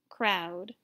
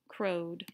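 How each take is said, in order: First: The vowel is an 'ow' sound. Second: The vowel is a long 'oh' sound. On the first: The speaker calls it right. "Let's try OW instead" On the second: The speaker calls it wrong. "Let's try it with the long O sound first"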